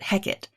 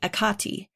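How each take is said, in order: First: The name has its Shakespearean pronunciation. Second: The name has its Greek pronunciation. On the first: "in Shakespeare they usually pronounce it Hecate" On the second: "if we're going Greek, we can say Hekate"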